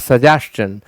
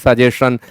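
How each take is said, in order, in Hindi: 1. अंत को 'ch' की ध्वनि के साथ बोला जाता है। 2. अंत को बिना 'ch' की ध्वनि के बोला जाता है। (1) "च का उच्चारण लेगा, यानी आपको बोलना है सजेशन" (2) "भूल से लोग सजेशन का प्रयोग करते हैं, बिल्कुल गलत है"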